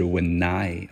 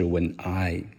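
First: The two words are linked into one. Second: The two words are said separately. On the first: The speaker calls it right. "我用的是when I" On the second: The speaker calls it wrong. "而不是when I"

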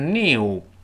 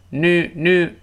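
First: A clear y sound comes before the vowel. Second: There is no y sound before the vowel. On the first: "英式发音都是new，前面有个明显的耶这个声音" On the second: "new 这是个美音"

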